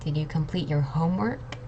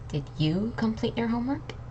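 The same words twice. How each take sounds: First: The word "homework" is stressed. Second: The word "you" is stressed. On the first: "and homework" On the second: "I was emphasizing on these three words: you"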